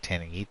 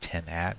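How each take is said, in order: First: The second syllable sounds like 'eat'. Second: The second syllable sounds like 'at'. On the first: The speaker calls it wrong. "Not not ten eat" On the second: The speaker calls it right. "It's a ten at"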